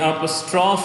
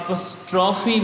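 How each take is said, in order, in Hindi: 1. शब्द का अंत 'ee' अक्षर के बिना होता है। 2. शब्द का अंत एक 'ee' अक्षर से होता है। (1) "ये अपस्ट्रॉफ है, क्योंकि इंग्लिश के अंदर जो लास्ट सेलेबल होता है दैट इज़ नॉट काउंट" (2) "ये अपस्ट्रॉफी नहीं है"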